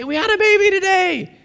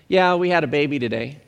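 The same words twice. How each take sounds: First: Very high, elated announcement; wildly excited. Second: Low-key, casual report of news; unimpressed. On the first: New parents calling people about their baby, wildly excited. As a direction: go crazy with the big news. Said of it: "They're going crazy". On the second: New father calls a friend with baby news, unimpressed. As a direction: say it as if it were no big deal. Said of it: "And not that big of a deal". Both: Acted.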